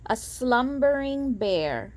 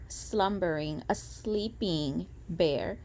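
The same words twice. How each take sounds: First: Said in the usual way. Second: Sleepy hush. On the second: Shown as a demonstration. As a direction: lull it softly like a sleeping bear.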